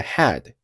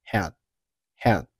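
First: Said in the usual way. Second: "had" cut off before its final sound releases; unreleased final stop. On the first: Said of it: "后面的had结尾的t". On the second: Shown as a demonstration. Teacher showing learners "had" with the final stop held. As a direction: hold the end of "had" silently. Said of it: "留出时间不发声音".

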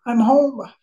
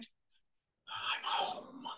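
First: High, voiced and full of feeling; emotional cry. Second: Barely voiced, overcome with emotion; choked whisper. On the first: Man overcome recalling arriving home, emotional cry. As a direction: let it out aloud, near tears. Repeats it aloud after whispering it. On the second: Man overcome recalling arriving home, choked whisper. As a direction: breathe it out in a tearful whisper. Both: Real, not acted.

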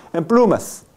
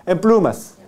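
No difference in how they are said.

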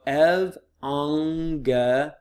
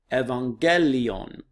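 First: "evangelion" very slowly as ev, ang, ge, lion; "evangelion" stretched into separate syllables. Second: "Evangelion" as one word, ev-an-GE-li-on, stress on GE; "Evangelion" whole, stressed in the middle, falling end; accented syllable. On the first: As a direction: sound out "evangelion" piece by piece. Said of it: "broken them up into syllables". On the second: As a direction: say "Evangelion" joined up, leaning on GE. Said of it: "putting the accent on that syllable". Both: Shown as a demonstration.

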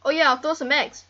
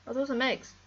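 First: Louder, bright burst of an idea; loud eureka burst about the eggs; sudden idea. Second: Said in the usual way. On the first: Real, not acted. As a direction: blurt it out as it hits you. Sudden idea, repeated calmer.

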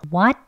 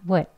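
First: Full WHAT with open 'aw' vowel; strong form. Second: 'would' here is weak WHAT, short 'wuht'; a quick slack 'wuht' with neutral vowel; weak form. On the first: English teacher contrasts the two forms, strong form. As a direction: say WHAT with the jaw dropped. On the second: English teacher contrasts the two forms, weak form. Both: Shown as a demonstration. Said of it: "이렇게 돼요".

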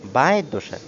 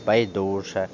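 First: БАЙДУЖЕ with the beat on БАЙ; first stress variant. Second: БАЙДУЖЕ with the beat on ДУ; second stress variant. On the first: Teacher showing one allowed variant, stress on first syllable. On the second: Teacher showing other allowed variant, stress on second syllable. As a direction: stretch DU in БАЙДУЖЕ. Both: Shown as a demonstration. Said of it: "мають подвійний склад".

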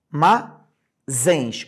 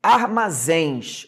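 First: Armazéns broken into AR, MA, ZÉNS with pauses; syllable by syllable. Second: Armazéns stretched slowly as one word; drawn-out word. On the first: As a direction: split Armazéns into three separate syllables. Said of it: "Última sílaba que eu escrevi". (Armazéns silabado, com pausas entre AR, MA e ZÉNS) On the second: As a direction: draw out Armazéns, falling on ZÉNS. (Armazéns dito devagar, numa palavra só) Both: Shown as a demonstration.

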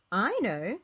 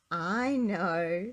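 First: Mild eager cry, a little raised; bright cry. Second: A weary sigh on the words. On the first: Little Miss Brainy answers Mister Messy, crying out eagerly. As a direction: cry it out keenly. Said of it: "cried little Miss Brainy". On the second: Little Miss Brainy answers another simple question with a sigh. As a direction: sigh it, at usual pitch. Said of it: "sighed little Miss Brainy". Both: A narrator's reading.

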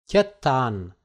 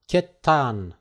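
No difference in how they are said.

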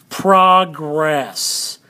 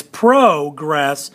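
First: "progress" with PRAH, as in /pʰɹɑɡɹɛs/, falling; first way to say progress. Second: "progress" with PROH, as in /pʰɹoʊkɹɛs/, drawn out; second way to say progress. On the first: Teacher gives one way to say it, "progress" with PRAH. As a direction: say "progress" with a short ah vowel in the first syllable. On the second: Teacher gives the other way to say it, "progress" with PROH. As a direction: say "progress" with a long oh vowel in the first syllable. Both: Shown as a demonstration. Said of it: "so we call it progress or progress".

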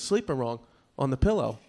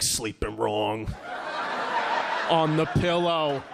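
First: Said in the usual way. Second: Slow, drawn-out insinuation; mock dad repeating it suspiciously; suggestive mocking echo. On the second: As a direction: stretch each word with heavy doubt. Dad echoes son with innuendo.

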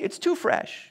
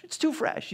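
First: Higher, soothing tempter voice with too leaned on; tempting enemy. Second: Softer tempting enemy. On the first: The enemy urging a hurt believer to wait, high coaxing voice. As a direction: coax them that "too fresh" means wait. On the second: The enemy repeating its excuse to a believer, higher and softer. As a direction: hush it like a sly secret. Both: Acted. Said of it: "could be whispering to you".

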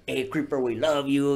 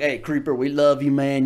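First: Sweet fan greeting. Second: A hint of a big buff bro hollering; bro fan greeting. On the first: Retold or imitated. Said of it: "he wasn't talking like that". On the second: Comedian imitating the big fan as he really sounded, bro-style. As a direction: hail him like a rowdy gym bro. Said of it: "He was more like".

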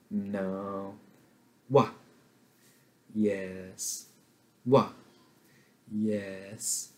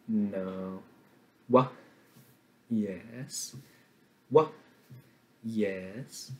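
The two takes are said the same way.

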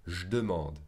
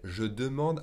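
First: "je demande" with one e dropped, run together; skipped E. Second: Said in the usual way. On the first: Shown as a demonstration. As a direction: contract "je demande" by swallowing an e. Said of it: "the French will skip". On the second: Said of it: "E in second position".

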